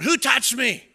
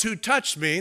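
First: Higher, louder call out; Jesus calling out. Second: A touch louder call; Jesus calling out. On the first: Jesus calling to the pressing crowd, loud call. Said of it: "Jesus yells out". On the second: Jesus asking the crowd, mild call. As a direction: ask the crowd firmly. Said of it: "when Jesus yells". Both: Retold or imitated.

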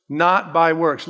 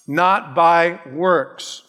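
First: Said in the usual way. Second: NOT by works, slow and deliberate; slow emphasis. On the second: Acted. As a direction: hammer Not slowly, word by word. Preacher repeats key phrase.

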